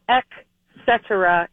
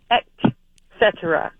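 First: The first syllable ends in a k sound. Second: The first syllable ends in a t sound. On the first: The speaker calls it wrong. "it's not ek cetera" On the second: The speaker calls it right. "it's et cetera. E T, not E K"

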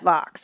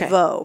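First: The final x is sounded out. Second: The final x is silent, French style. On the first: The speaker calls it right. "but it is Vaux, I have learned" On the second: The speaker calls it wrong. "I always thought it was Vaux"

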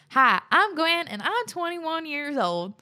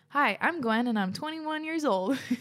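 First: It is said in a put-on country accent. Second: It is said in a plain, ordinary accent.

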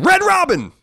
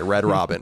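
First: It is said loudly, shouted. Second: It is said at normal volume.

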